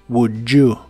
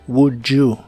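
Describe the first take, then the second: First: The d and y merge into a j sound. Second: The d and y merge into a j sound.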